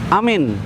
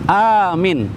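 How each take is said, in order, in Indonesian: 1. Kedua vokal pendek. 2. Vokal pertama panjang, yang kedua pendek. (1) "A-nya pendek, mi-nya pendek" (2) "A-nya panjang, mi-nya pendek"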